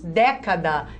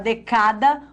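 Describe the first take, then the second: First: The stress is on the first syllable. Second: The stress is on the middle syllable. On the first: The speaker calls it right. "Nós falamos década. Então, toda a proparoxítona é acentuada" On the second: The speaker calls it wrong. "a gente fala decada"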